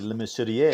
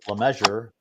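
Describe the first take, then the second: First: The name has a French pronunciation. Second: The name has an English pronunciation. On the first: This is how it is said in Quebec. "If we're in Quebec, it would be Le Mesurier" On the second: This is the simpler everyday version. "it's easier to say Le Measure, like tape measure"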